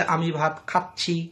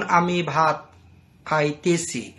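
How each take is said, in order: First: খাচ্ছি said short and standard, khach-chhi; standard verb form. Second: খাইতেছি said in its long spoken form, khai-te-chhi; colloquial verb form. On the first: Teacher contrasting the standard খাচ্ছি for students. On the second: Teacher showing students the colloquial খাইতেছি. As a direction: give the everyday dialect form খাইতেছি. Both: Shown as a demonstration. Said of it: "খাইতেছি বলে কেউ যদি বলে".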